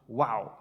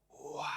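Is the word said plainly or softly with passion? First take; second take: plainly; passionately. First: It is said plainly, without extra feeling. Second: It is said softly with inflection and passion.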